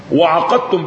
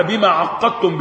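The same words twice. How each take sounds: First: وعقدتم with a short, undoubled ق; single light qaf. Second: عقدتم with a doubled, held ق; doubled qaf. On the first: Teacher reads out the second reading, وعقدتم with light single qaf. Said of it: "بالتخفيف". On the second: Teacher reads out the first reading, عقدتم with doubled qaf. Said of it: "بالتشديد". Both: Shown as a demonstration.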